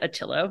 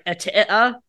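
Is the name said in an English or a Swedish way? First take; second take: English; Swedish. First: The name is said with plain English sounds. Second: The name is said with guttural Swedish sounds. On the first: The speaker calls it wrong. "It is not actually said Attilo. That's not how you say it" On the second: The speaker calls it right. "It's like super, super Swedish"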